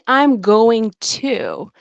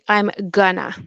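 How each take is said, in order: First: Each syllable of 'going to' is said in full. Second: 'Going to' is reduced and blended into 'gonna'. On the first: "instead of saying I'm going to" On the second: "very often you'll hear English speakers um, say I'm gonna"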